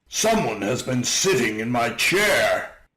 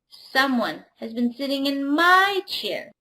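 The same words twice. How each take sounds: First: It is said in a great big voice. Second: It is said in a tiny little voice.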